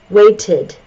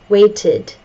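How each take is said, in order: Both takes have the same delivery.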